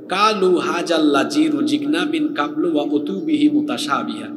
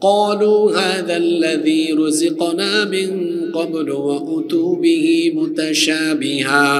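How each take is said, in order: First: The consonants are flattened into plain Bengali sounds. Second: The Arabic consonants keep their deep, heavy sounds. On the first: The speaker calls it wrong. "তাইলে এটার উচ্চারণ হয়ে যাবে এরকম" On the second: The speaker calls it right. "মনে করেন কোরআনের আয়াত হলো"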